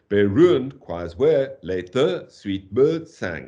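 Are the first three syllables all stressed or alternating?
alternating. The stresses alternate weak and strong throughout. The speaker calls it wrong. "It doesn't work at all"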